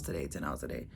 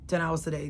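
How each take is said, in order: First: Fading, weary. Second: Said in the usual way. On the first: Shown as a demonstration. Repeated, fading.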